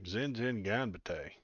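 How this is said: It is said in a put-on redneck drawl.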